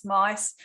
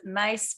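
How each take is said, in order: First: MICE with a long I vowel, rhyming with nice; pronounced Mice. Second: MACE with a long A vowel, rhyming with face; pronounced Mace. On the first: Interviewer showing listeners the other way to say the surname, pronounced Mice. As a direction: say "Mice" with an "eye" sound. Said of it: "Some people pronounce it". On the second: Interviewer showing listeners one way to say the surname, pronounced Mace. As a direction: say "Mace" with an "ay" sound. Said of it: "Some people pronounce it Mace". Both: Shown as a demonstration.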